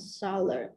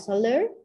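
First: The stress is on the first syllable. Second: The stress is on the second syllable. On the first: The speaker calls it right. "Vậy thì nó nhấn âm 1" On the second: The speaker calls it wrong. "không ai đọc là solar"

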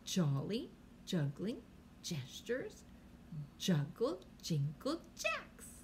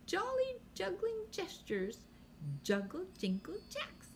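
First: The phrase is said at a slower pace. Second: The phrase is said at a quicker pace.

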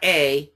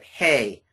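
First: The word starts directly with the vowel. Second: The word starts with an h sound. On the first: The speaker calls it wrong. "not A" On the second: The speaker calls it right. "but hey, because of that rough breathing"

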